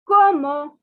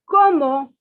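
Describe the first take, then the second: Both takes have the same delivery.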